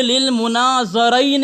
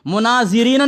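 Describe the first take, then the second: First: للمناظرین slowly, with an "a" after the z: munazaraini; زا پر زبر. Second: مناظرین misread with "i" after the z: munazirina; زا پر زیر. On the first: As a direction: read للمناظرین as "munaza-raini", drawn out. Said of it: "زا پر زبر ہے". (للمناظرین میں زا پر زبر، ٹھہر ٹھہر کر) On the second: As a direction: say مناظرین wrongly as "munazi-rina". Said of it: "نہ زا پہ زیر ہے". (مناظرین میں زا کے نیچے زیر، غلط تلفظ) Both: Shown as a demonstration.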